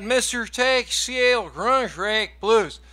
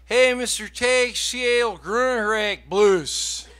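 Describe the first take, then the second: First: Slow mangled title. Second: Slow, mangled song title. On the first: Fan repeating garbled song name to singer, slow mangled title. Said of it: "And he said". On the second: Fan greeting singer with garbled song name, slow mangled title. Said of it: "And then he says". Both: Retold or imitated.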